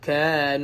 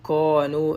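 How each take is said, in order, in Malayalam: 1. സ്വരം ലഘുവും തുറന്നതുമാണ്, 'a' പോലെ. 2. സ്വരം ഘനവും വൃത്താകൃതിയുള്ളതുമാണ്, 'o' പോലെ.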